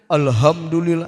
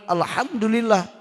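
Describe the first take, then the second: First: The h is a plain, light breath. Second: The h is a throaty, pressed breath. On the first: The speaker calls it wrong. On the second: The speaker calls it right. "da anu bener alhamdulillah"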